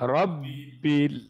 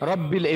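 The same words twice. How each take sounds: First: The doubled B is held for a moment. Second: The doubled B is said quickly, not held. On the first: The speaker calls it right. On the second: The speaker calls it wrong.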